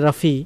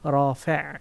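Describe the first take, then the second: First: The word ends in an 'ee' vowel. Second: The word ends in an 'eh' vowel. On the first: The speaker calls it wrong. "আমরা বলি রাফি" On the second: The speaker calls it right. "আসল উচ্চারণ হলো শুদ্ধভাবে আরবিতে"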